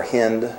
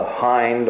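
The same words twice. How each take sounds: First: "hind" with a short i, rhyming with "pinned"; short-i pronunciation. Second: "hind" with a long i, rhyming with "kind"; long-i pronunciation. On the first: Preacher offering the other way to say it, "hind" with short i. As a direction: say "hind" like "hinned". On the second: Preacher explaining a Bible word to listeners, "hind" with long i. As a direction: say "hind" like "hined". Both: Shown as a demonstration. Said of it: "pronounced either way".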